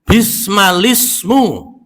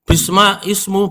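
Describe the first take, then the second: First: The words are joined with a linking l. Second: The two words are said separately. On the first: The speaker calls it right. "kok bacanya lis" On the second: The speaker calls it wrong. "bisma ismu bukan"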